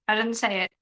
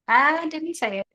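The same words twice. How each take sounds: First: Said in the usual way. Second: Denial pushed higher and louder. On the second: Real, not acted. Streamer protesting innocence to her chat, louder and higher.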